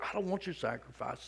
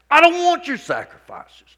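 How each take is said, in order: First: The line is read in a plain, calm way. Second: The line is read with strong, passionate feeling.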